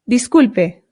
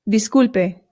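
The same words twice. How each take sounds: Both takes have the same delivery.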